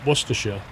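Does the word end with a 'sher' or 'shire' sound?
sher. The ending is a short 'sher' sound. This is the local British way. "they don't say Worc Worcestershire"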